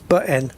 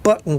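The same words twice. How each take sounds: First: The T sounds are changed in a regional way. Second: The T sounds are pronounced clearly. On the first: "button becomes button" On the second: "which have got two T's"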